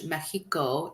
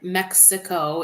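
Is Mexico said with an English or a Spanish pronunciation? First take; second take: Spanish; English. First: The word is said with a Spanish pronunciation. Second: The word is said with an English pronunciation. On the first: "Mexico is Spanish" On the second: "Mexico is English"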